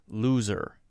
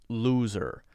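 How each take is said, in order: No difference in how they are said.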